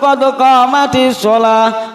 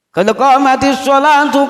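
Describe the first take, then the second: First: The last word ends with an -ah sound. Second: The last word ends with an -atu sound. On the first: The phrase is stopped at the end. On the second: The phrase is read on without stopping.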